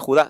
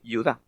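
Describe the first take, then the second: First: The name begins with a harsh throaty H sound. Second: The name begins with a Y sound. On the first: This is the Spanish form, not the Hebrew one. The speaker calls it wrong. "en hebreo no se dice Judá" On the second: This is how it is said in Hebrew. The speaker calls it right. "se dice Yudá"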